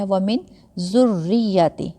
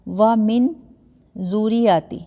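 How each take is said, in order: First: ذُرِّّيَّتِي with a hard doubled r and y, zurrijjati; ذُرِّّيَّتِي with the r held and hit; correct reading. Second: The mistake: ذُرِّيَّتِي without any stress on the shadda; ذُرِّيَّتِي light and quick, letters not doubled; wrong reading. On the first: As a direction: press the shadda in ذُرِّّيَّتِي firmly. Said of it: "را کو بھی تھوڑا سختی کے ساتھ". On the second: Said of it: "تو یہ غلط ہوگا". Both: Shown as a demonstration.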